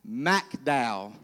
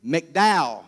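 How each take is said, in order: First: McDowell said as "mack-DOWL", softer and lower; first syllable of McDowell rhymes with "back"; local pronunciation. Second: McDowell said as "mick-DOWL"; first syllable of McDowell rhymes with "pick"; standard pronunciation. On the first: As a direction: put a clear A in McDowell, "mack". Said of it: "it's McDowell". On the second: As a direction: open McDowell with a short "mick". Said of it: "There's no A". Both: Shown as a demonstration.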